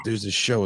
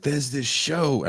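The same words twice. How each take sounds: First: Said in the usual way. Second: Put-on high, drawn-out try at a Scottish accent; attempted Scottish accent. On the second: Retelling what the Scottish hosts said, half-attempted Scottish accent. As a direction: start a Scottish impression, slow and lifted. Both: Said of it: "I'm not gonna try to do the accent".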